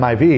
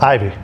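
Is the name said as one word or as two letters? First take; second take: two letters; one word. First: The name is said as two letters. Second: The name is said as one word. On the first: The speaker calls it wrong. "Because of the way you say it" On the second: The speaker calls it right. "it's just Ivy"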